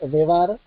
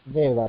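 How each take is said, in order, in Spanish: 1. La palabra devar lleva su propio acento. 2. La palabra devar pierde su acento. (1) "en vez de decir devar" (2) "le quita el acento a la palabra precedente"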